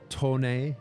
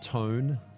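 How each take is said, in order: First: The name is said as two syllables, to-neh. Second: The name is said as one syllable, like tone. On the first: The speaker calls it right. "it's pronounced uh, Tone" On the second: The speaker calls it wrong. "not Tone"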